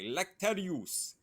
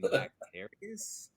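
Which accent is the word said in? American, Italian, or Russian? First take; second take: Russian; American. First: It is said with a Russian accent. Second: It is said with a plain American accent. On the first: "a Russian says it way different. Like they'll be like lactarius" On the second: "You mean lactarius?"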